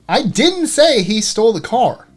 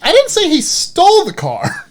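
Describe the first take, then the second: First: The stress is on "didn't". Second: The stress is on "stole".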